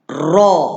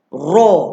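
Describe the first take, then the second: First: The lips are only slightly rounded on the sound. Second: The lips are fully rounded on the sound. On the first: The speaker calls it right. "Kurangkan muncung" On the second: The speaker calls it wrong. "Kalau muncung sepenuhnya dia bunyi ra"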